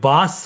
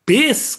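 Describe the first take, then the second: First: It has an open 'a' vowel, like bus. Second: It has an 'ay' vowel, like base. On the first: A common Bengali mispronunciation. The speaker calls it wrong. "কেউ বাস বলে" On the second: The proper pronunciation few Bengalis use. The speaker calls it right. "কেউই বেস কথাটা উচ্চারণ করতে পারে না"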